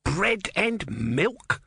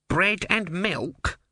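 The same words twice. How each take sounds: First: High, slow, outraged mock shout. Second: Barman's offer. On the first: Om outraged at the barman's offer, shouting. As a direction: spit back the offer in disgust. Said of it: "shouted Om". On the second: Barman offers the tortoise food. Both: A narrator's reading.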